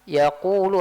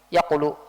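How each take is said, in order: First: The vowel before the l is held long. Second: The vowel before the l is cut short. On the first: The speaker calls it right. "saya baca yaqulu, harusnya kayak gitu" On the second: The speaker calls it wrong. "tidak adakan pe- pemanjangan suaranya"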